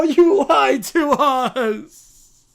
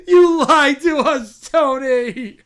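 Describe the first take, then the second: First: Very slow, loud sobbing drawl; bratty child. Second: Loud, slow whiny accusation; bratty child. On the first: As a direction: stretch it out in a wailing sob. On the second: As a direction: accuse like a sulking kid. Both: Acted. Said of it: "the Brat Pack".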